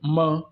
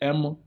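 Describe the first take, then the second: First: The letter is said as the Igbo letter sound. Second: The letter is said as an English letter name. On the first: The speaker calls it right. "but you say M, as in like you want to read the alphabet now" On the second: The speaker calls it wrong. "You don't say M in Igbo"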